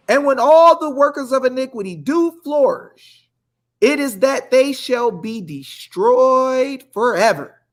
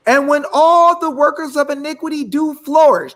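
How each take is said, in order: First: Building preacher cadence. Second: Higher, louder preaching; building preacher cadence. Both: Acted. Host preaching to viewers, rising in fervor. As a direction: rise into the verse like a sermon.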